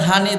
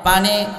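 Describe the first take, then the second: First: The word begins with an h sound. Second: The word begins with a p sound. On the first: This is how Noakhali people say it. "ওনারা বলে" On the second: This is how the speaker's own region says it. "আমরা বলি"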